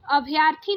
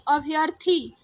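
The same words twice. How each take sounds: First: अभ्यर्थी with a long aa after y; wrong long middle vowel. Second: अभ्यर्थी with a short a after y; correct short middle vowel. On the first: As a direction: say अभ्यर्थी as "abh-yaar-thi". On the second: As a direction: say अभ्यर्थी as "abh-yur-thi". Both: Shown as a demonstration. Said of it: "आ की मात्रा य से हटा दीजिए".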